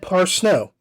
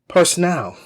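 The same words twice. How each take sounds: First: The name is said as 'par' plus 'snow'. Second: The name is not said as 'par' plus 'snow'. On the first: The speaker calls it right. "And it is said Parsnow... golf ball, par, and then snow" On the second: The speaker calls it wrong. "I mispronounced Andrea Parsonow's name. I said Parsnow"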